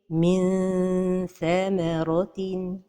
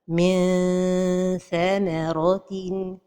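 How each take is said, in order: First: The n is hidden with a small tongue gap. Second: The tongue is too far, stretching it like a vowel. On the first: The speaker calls it right. "la prononciation correcte est" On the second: The speaker calls it wrong. "La deuxième erreur est de trop éloigner la langue du palais supérieur"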